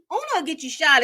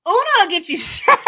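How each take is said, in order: First: Said in the usual way. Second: Loud, high, laughing through the words; real laugh bursting out on the line. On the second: Real, not acted. Joking to viewers about cheating at Uno, laughing. Cracking up at her own recap.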